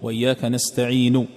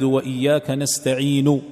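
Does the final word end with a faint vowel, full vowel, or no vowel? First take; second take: faint vowel; full vowel. First: The final sound ends with a faint, partial vowel. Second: The final sound ends with a full u vowel. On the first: "هذه استعين الأخيرة تعطيها ثلث الصوت فقط" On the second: "هذا إذا نطقت بها وهي مضمومة"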